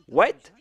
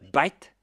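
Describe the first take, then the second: First: It starts with a W sound, standard accent. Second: It starts with a B sound, Indian accent.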